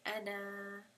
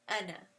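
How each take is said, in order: First: The final vowel is held long. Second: The final vowel is cut short. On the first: The reciter stops on this word. "stopping on it, you are just going to pronounce it with tabi'i" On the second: The reciter continues without stopping. "the short, without the mad"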